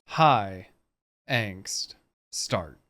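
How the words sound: Long pauses separate each word.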